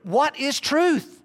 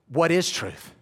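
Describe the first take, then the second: First: It is said in an earnest, searching tone. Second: It is said in a mocking, dismissive tone. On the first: The speaker genuinely longs to know the truth. "One as like sincere" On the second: There is no such thing as truth. "Is it this?"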